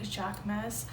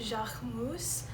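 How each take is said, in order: First: The name is pronounced the American way. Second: The name is pronounced the French way. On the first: "if you're in America, we pronounce it like" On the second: "I think that's how you pronounce it because he is a French designer"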